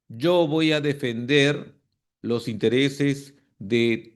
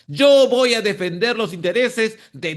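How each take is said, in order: First: It sounds flat and uninterested. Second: It sounds firm and convinced. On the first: The speaker does not really care about the cause. The speaker calls it wrong. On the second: The speaker truly intends to lead the cause. The speaker calls it right.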